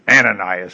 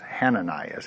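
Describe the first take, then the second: First: The name begins with a vowel sound. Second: The name begins with an H sound. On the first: "I guess you drop the H then" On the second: "Hananias is actually the correct pronunciation"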